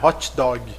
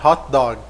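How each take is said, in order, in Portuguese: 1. Os sons do t e do g são claramente liberados. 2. Os sons do t e do g são abafados e não são liberados. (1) "A gente pontua" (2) "o T e o G teriam um som muito mais abafado"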